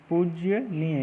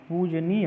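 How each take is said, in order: First: पूजनीय as "pujjya-neey"; teacher voicing पूजनीय with pujya at the front; wrong pronunciation. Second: पूजनीय as "poo-ja-neey"; long poo, simple ja in पूजनीय; correct pronunciation. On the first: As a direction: add a y sound after the j in पूजनीय. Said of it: "ये नहीं होता है". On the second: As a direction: keep j free of any y in पूजनीय. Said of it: "होता है". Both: Shown as a demonstration.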